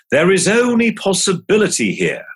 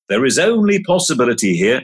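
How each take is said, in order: First: "only" leaned on, higher, falling; emphatic mantra. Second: Faster, flowing repeat with rising end; quicker repeat. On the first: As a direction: stress the word "only" in the mantra. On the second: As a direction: run through it lightly, lifting at the end. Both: Shown as a demonstration. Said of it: "here's a mantra or two".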